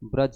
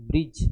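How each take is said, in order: First: The first syllable has an 'a' vowel. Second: The first syllable has an 'i' vowel. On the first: The speaker calls it right. "ब्रज होता है" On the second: The speaker calls it wrong. "ब्रिज नहीं होता है"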